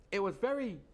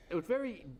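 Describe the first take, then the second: No difference in how they are said.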